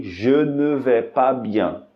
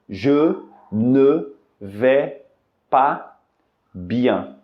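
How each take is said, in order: First: "Je ne vais pas bien" slow but joined; slow connected demo; slowed whole phrase. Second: "Je ne vais" drawn out, then "pas", then "bien" with pauses; slow careful word by word; very slow demo. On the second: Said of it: "você pode responder". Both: Shown as a demonstration.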